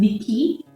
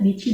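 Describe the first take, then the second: First: The middle consonant is a 'k' sound. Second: The middle consonant is a 'ch' sound. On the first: The speaker calls it wrong. "bukan diki" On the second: The speaker calls it right. "ingat dici"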